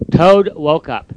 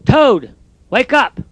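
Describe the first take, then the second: First: Said in the usual way. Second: Misread line. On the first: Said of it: "let me start over again". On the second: Shown as a demonstration. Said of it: "I misread that".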